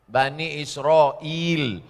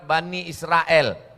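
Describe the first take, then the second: First: Israel is said the Arabic way, as Isra'il. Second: Israel is said the Indonesian way, with an e. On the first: The speaker calls it right. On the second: The speaker calls it wrong. "Israel itu disebut pakai E"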